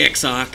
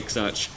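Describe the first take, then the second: First: The word ends with a 'k' sound. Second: The word ends with a 'ch' sound. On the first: "as some people like to call it" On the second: "I just prefer X-Arch because it's easier to pronounce. Who cares if it's wrong?"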